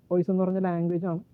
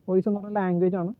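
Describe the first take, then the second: No difference in how they are said.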